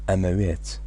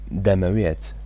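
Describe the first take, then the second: First: The word starts without any D sound. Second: The word starts with a clear D sound. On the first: This is the casual form used in many cities. "to skip the D. They don't really pronounce it. They just say amawiyat" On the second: This is the full standard form of the word. "that's the actual word, that's the real word"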